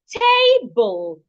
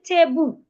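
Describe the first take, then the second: First: The stress is on the first syllable. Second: The stress is on the second syllable. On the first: The speaker calls it right. "the first part of that word is the part I need to say louder, longer, and clearer" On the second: The speaker calls it wrong. "I should not say table"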